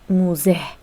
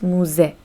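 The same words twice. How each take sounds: First: The word ends with an audible h sound. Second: The word ends on the vowel, no h sound. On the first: The speaker calls it wrong. "we should not pronounce it muze" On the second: The speaker calls it right. "We should pronounce it like this"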